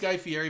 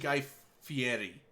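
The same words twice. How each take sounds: First: The R in the surname is plain, not rolled. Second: The R in the surname is rolled with the tongue. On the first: This is how most people say the name. The speaker calls it wrong. "everyone says Guy Fieri" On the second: This is how the name is really said. The speaker calls it right. "it's actually Guy Fieri. Like it's it's like you gotta do like the little. tongue twist"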